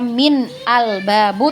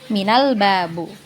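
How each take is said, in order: First: The glottal stop before 'al' is pronounced separately. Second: The glottal stop is dropped and the words link. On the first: The speaker calls it wrong. "bukan kita baca" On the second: The speaker calls it right. "tapi minal babu"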